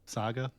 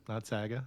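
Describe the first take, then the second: First: The first vowel is said the standard way. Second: The first vowel is said an odd way. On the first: The speaker calls it right. "Saga, not saga" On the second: The speaker calls it wrong. "I don't know why I said it like that"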